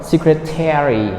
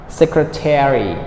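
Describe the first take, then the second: The two takes are said the same way.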